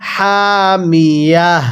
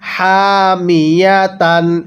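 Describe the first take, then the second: First: The word ends with a light breathy h. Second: The word ends with the syllable -tan.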